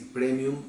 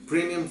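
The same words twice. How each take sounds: First: The word is pronounced with Spanish sounds. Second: The word is pronounced with English sounds. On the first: "es en español" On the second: "se pronunciaría en inglés"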